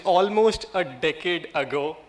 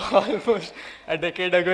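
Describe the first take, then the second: First: Almost drawn out and leaned on; stress on almost. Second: Almost said again through a laugh; laughing repeat. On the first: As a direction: lean hard on almost, slowly. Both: Shown as a demonstration. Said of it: "Emphasis on the word almost".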